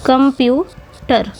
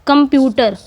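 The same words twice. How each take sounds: First: कंप्यूटर slowly split as कं, प्यू, टर; three separate syllables. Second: Said in the usual way. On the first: Shown as a demonstration. Teacher divides कंप्यूटर for students, slowly syllable by syllable. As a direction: spell out the beats of कंप्यूटर with gaps. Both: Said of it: "तीन syllable पाए जा रहे हैं".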